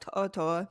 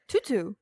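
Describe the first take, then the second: First: The name is said with a native-style accent. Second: The name is said plainly, anglicized, as spelled. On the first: It is said the way the name is properly pronounced. "they try and put the little accent in" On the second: It is said the way the name looks. "you say it, like you say it, and you're like"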